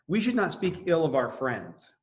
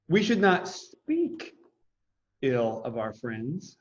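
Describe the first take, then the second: First: No word is given special stress. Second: The word 'speak' is stressed.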